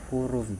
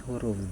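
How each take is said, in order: The two takes are said the same way.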